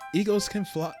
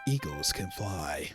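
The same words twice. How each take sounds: First: It is said in a normal voice. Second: It is said in a deep, crazy voice.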